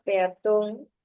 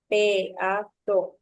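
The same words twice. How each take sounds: First: Said in the usual way. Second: Peatón broken into pe, a, tón, each beat loud; split syllables. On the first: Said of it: "identificamos primero a la palabra peatón". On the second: Shown as a demonstration. Teacher shows the class the hiatus, Peatón in separated syllables. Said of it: "entre la vocal A y la vocal O".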